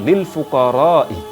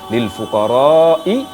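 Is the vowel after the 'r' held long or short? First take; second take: short; long. First: The vowel after the r is kept short. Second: The vowel after the r is drawn out long. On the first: The speaker calls it wrong. "laki-laki tadi membaca dengan" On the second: The speaker calls it right. "dengan panjang lebih"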